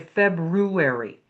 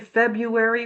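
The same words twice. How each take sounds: First: The R after 'Feb' is clearly pronounced. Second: The R after 'Feb' is left out. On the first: The speaker calls it right. "we say February. There's an R in there" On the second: The speaker calls it wrong. "we don't say February"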